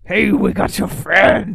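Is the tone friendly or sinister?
sinister. It is said in a sinister tone.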